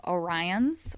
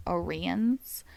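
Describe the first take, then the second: First: Orion's said "oh-RYE-uns"; pronunciation variant. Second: Orion's said "oh-REE-uns"; pronunciation variant. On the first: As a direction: give Orion's a long I, like "rye". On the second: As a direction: give Orion's an EE sound in the middle. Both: Shown as a demonstration. Offers two readings of a name.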